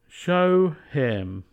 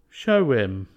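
First: The h of him is clearly pronounced. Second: The h is dropped, linked with a w.

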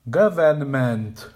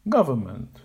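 First: Every syllable is said with a full vowel. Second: The two weak syllables use reduced schwa vowels. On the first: The speaker calls it wrong. "The student says, without knowledge of or willingness to use schwa sounds or stress" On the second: The speaker calls it right. "A native speaker says, using a schwa sound on each of the two weak syllables"

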